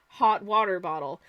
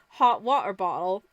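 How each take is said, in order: First: The t sounds are fully pronounced. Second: The t sounds are replaced by glottal stops. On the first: This is how the speaker used to talk. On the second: This is how the speaker now talks every day.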